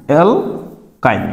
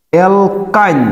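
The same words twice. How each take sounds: First: অ্যালকাইন stretched slow and a little softer; slowly drawn out. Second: Said in the usual way. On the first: Shown as a demonstration. Teacher modelling the name for students, slow and drawn out. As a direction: spell out অ্যালকাইন slowly by ear. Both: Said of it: "এটা উচ্চারণ হবে কি?".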